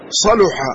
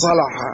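First: The middle consonant is followed by a 'u' vowel. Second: The middle consonant is followed by an 'a' vowel. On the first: "من يرى أن الفعل صلح هو مضموم العين، صلح" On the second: "وليس صلح"

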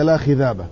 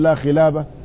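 First: The second word has a dh sound in the middle. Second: The second word has an l sound in the middle. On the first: The speaker has a speech impediment from a head injury. The speaker calls it wrong. "لسانه أصبح فيه ما لا يستطيع أن ينطق به كثير من الحروف، فيقول لا خذابة" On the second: This is the correct form of the phrase. The speaker calls it right. "يعني لا يستطيع أن يقول لا خلابة"

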